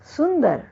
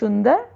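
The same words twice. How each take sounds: First: The word begins with an s sound. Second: The word begins with an sh sound. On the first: The speaker calls it right. "शुद्ध रूप है सुंदर" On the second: The speaker calls it wrong. "Bengal क्षेत्र के लोग प्रायः स का उच्चारण श की तरह"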